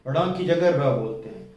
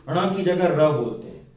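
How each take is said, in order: The two takes are said the same way.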